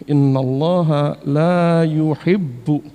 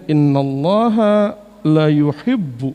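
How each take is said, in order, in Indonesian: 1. Vokal pada 'la' dibaca panjang. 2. Vokal pada 'la' dibaca pendek. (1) "Jadi saya selalu mengingatkan itu" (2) "Beda kalau dibacanya"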